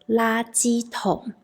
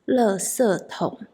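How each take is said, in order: First: It is said with the mainland China pronunciation. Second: It is said with the Taiwan pronunciation. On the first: "a rubbish bin in China is" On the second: "In Taiwan"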